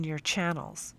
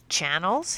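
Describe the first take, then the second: First: Said in the usual way. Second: Channels? lifted into a puzzled rise at the end; puzzled rising question. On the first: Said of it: "Channels?" he asked". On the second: Acted. Captain puzzled by the teacher's word, rising question. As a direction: ask Channels? back with a rising query tune. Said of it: "he asked".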